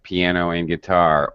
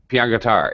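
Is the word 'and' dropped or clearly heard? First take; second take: clearly heard; dropped. First: It is said with 'and' clearly heard. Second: It is said fast with 'and' dropped. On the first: The speaker calls it right. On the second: The speaker calls it wrong.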